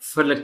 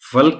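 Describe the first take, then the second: First: A vowel is heard between l and k. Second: No vowel is heard between l and k. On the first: The speaker calls it right. "ये लफ्ज आया है फलक से" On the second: The speaker calls it wrong. "फल्क से नहीं आया"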